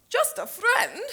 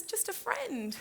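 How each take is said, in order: First: High, loud, indignant question; wounded, outraged disbelief; affronted echo. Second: High, slow, pleading reassurance; pleading excuse; placating. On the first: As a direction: throw the words back, deeply offended. Offended friend echoes the words. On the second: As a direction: soothe a jealous friend, drawing it out. Placating a jealous friend. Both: Acted.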